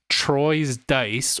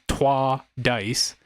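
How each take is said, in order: First: The first word is said in an English way. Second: The first word is said in a French way.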